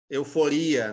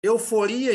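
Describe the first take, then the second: First: Euforia said the Spanish way, stress on the ri; Spanish pronunciation. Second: Euforia said the Portuguese way, stress on the fo; Portuguese pronunciation. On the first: Teacher contrasts Spanish euforia for students, stress on ri. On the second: Teacher shows students the Portuguese euforia, stress on fo. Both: Shown as a demonstration. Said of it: "Euforia em português".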